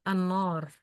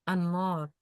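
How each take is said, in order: No difference in how they are said.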